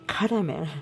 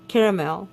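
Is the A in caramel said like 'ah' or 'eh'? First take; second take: ah; eh. First: The A is said like 'ah'. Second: The A is said like 'eh'. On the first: This is how people in the speaker's country say it. "my country call, pronounces it caramel. ... Maybe they think A is sounded ah instead of eh" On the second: This is the speaker's own usual pronunciation. "I would say it that way"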